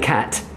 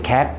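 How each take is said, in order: First: The final t sound is clearly released. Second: The final t sound is cut off, unreleased. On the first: The speaker calls it right. "Instead of saying cat" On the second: The speaker calls it wrong. "mute the end sound of a hard consonant"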